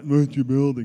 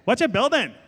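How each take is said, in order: First: It is said in a plain, normal voice. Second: It is said in a put-on, annoying voice.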